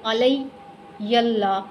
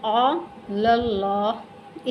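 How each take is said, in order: First: अलैयल्लाह with an extra ay-y before Allah; wrong sounded ya. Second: अलल्लाह very slowly, la joined to a thick doubled l; correct silent ya. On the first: Teacher warns against misreading, sounded ya. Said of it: "नहीं पढ़ेंगे". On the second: Teacher shows lam joined to lam, slow recitation. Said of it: "लाम को direct लाम के साथ मिलाया". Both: Shown as a demonstration.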